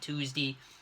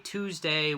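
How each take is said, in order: First: The final syllable ends in a short 'dee' sound. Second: The final syllable ends in a full 'day' sound. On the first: The speaker calls it right. "the days just without the A" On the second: The speaker calls it wrong. "Just don't say"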